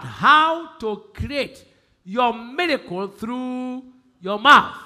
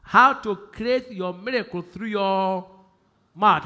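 First: Slow and louder, stretching How to create your miracle through your mouth; slow emphatic repeat. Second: Said in the usual way. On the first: Shown as a demonstration. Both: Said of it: "I'm going to tell".

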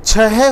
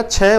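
First: First छह in two syllables; pronunciation option. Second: छह as one syllable; contrasting option. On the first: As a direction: say छह as "chhe-he". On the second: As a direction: say छह as "chhe". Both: Shown as a demonstration. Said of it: "सही उच्चारण अभी कर लें".

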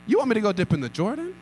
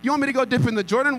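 First: Quick, incredulous rise on Jordan; scoffing question. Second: Higher, louder and fast, outraged rise; indignant retort. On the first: Naaman scoffing at the prophet's order, fast and incredulous. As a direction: toss off the idea as absurd. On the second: Naaman outraged at dipping in the Jordan, louder and faster. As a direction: hurl it back in disbelief. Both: Acted. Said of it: "went off in anger".

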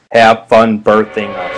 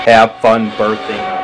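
First: Teasing low voice. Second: Teasing low voice, slower. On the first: Madeline teasing. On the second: Repeated teasing. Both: Acted.

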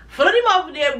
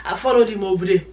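First: Followed him over there said higher with a push on followed; emphatic repeat. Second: Said in the usual way. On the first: Real, not acted. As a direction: lift and punch the word followed the second time.

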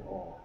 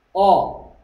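First: 어 dropped low and very soft; a limp, powerless little 어; weak unstressed vowel. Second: 어 punched out loud and higher; a forceful, stressed 어; strong stressed vowel. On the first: Teacher demonstrating the vowel without stress, weak soft 어. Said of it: "힘 없는 소리". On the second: Teacher contrasting two vowel sounds, strong emphatic 어. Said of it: "둘로 생각합니다". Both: Shown as a demonstration.

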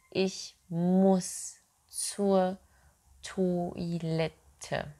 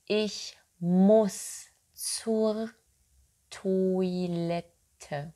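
The two takes are said the same way.

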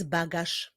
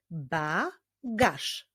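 First: Said in the usual way. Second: "Bagaż" broken into Ba, gaż; syllable by syllable. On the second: Shown as a demonstration. Teacher clapping the next word with pupils, "Bagaż" split in syllables. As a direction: say "Bagaż" as two beats with a pause between. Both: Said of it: "Wyklaszczmy sylaby w tych wyrazach".

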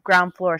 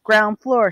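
First: Short command to the elevator; firm order. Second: Louder and higher, impatient repeat; louder repeated order. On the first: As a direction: order it crisply, expecting obedience. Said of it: "she ordered". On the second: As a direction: say it again, pushing harder. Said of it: "she repeated". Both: Acted.

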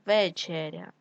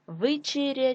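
First: Said in the usual way. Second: Вечеря said as Вичеря; short i after В in Вечеря; и in first syllable. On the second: Shown as a demonstration. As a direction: make Вечеря start with ви. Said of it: "нам потрібно вставити або".

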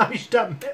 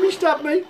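First: Laughing in disbelief; chuckling through the words. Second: Higher, outraged disbelief; indignant. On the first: Laughing as he gets stabbed. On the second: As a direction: protest it in disbelief. Indignant repeat after the stab. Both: Real, not acted.

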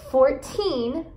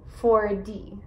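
First: Put-on FOURTEEN with a long, emphasized TEEN; four-TEEN, weight at the end of FOURTEEN; stress on final syllable. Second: Four D with the weight on Four, D light; FOUR-dee, falling away on D; stress on first syllable. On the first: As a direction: lean on the last syllable of FOURTEEN. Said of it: "enfatizar as sílabas no final". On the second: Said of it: "enfatizar as sílabas no começo". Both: Shown as a demonstration.

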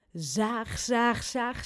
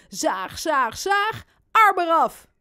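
First: Said in the usual way. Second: Building to a high, loud finish; mock-menacing play. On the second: Robin pretends sawing baby's arm off, playful loud menace. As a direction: build up and burst out on the last words.

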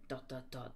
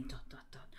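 First: Soft, low suspense pause; hushed dramatic dot dot dot; suspenseful hush. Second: Soft, whispered suspense pause; hushed dramatic dot dot dot; suspenseful hush. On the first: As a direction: drop the voice low for the dots. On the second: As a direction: whisper the dots like a ghost story. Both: A narrator's reading. Spooky suspense in the story.

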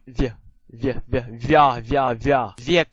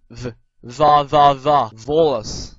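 First: Palatalized v, via said "vya"; soft V. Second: Plain hard v in va and volas, no y-glide. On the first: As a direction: draw out via and viek with a y-glide after v. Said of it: "軟音v". (軟音v，加耶音慢讀via) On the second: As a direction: drill va slowly and loudly with a hard v. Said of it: "硬音v". (硬音v，慢慢大聲讀va) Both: Shown as a demonstration.

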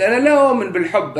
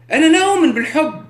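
First: Said in the usual way. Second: لا punched high and loud, fast; لا stressed, higher and louder; emphatic denial. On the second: Real, not acted. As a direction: hit لا hard in أنا لا أؤمن بالحب. Repeated declaration, first take.

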